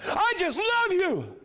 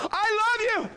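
First: Much higher, slow, drawn-out love you; heartfelt love line. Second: Much higher, louder, over-the-top gushing; gushing boyfriend. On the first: Preacher shows really telling someone love, slow drawn-out. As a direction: stretch the love out slowly and fully. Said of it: "when it's time to really tell them love". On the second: Preacher pretends his mother is his girlfriend, hammed-up gushing. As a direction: lay it on thick to a pretend girlfriend. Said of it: "and can you imagine". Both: Pretend.

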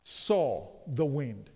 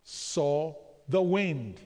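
First: Each word drawn out slow for the congregation; slow emphatic repeat. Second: Very slow, every word leaned on; even slower emphatic repeat. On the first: Preacher to congregation, repeating the phrase slowly and emphatically. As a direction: spell it out slowly so they answer back. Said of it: "when he what?". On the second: Preacher drilling the congregation, very slow and deliberate. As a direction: drag it out so the room repeats it. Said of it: "When he what?". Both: Shown as a demonstration.

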